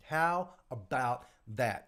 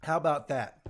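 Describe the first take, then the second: First: "How about that" drawn out slowly; slow emphasis. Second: Said in the usual way. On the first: Real, not acted. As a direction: spell out "How about that" word by word, unhurried.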